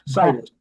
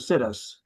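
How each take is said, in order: First: The first syllable is not said like 'sit'. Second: The first syllable is said like 'sit'. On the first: The speaker calls it right. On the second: The speaker calls it wrong.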